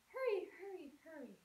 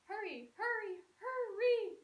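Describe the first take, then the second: First: Each repetition gets softer than the one before. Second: Each repetition gets slower than the one before. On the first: "let's try the decrescendo" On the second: "what about a ritardando?"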